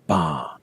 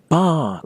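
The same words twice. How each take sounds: First: The vowel is loose, lingering and not raised. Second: The voice is raised to a high pitch. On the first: The speaker calls it right. "keep the vowel loose and lingering a little bit ... You have to say ba" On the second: The speaker calls it wrong. "don't raise your voice either. Don't say ba like the place you're going to get a pint"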